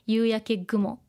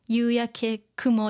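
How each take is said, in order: First: The second word begins with a voiced g. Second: The second word begins with a voiceless k. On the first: The speaker calls it right. "so we say 夕焼け gumo" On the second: The speaker calls it wrong. "it's not easy to say"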